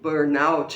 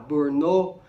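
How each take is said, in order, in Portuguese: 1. A palavra é pronunciada do jeito inglês. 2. A palavra é pronunciada como uma palavra francesa. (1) "ele vem do inglês" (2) "essa pronúncia errada que muita gente fala"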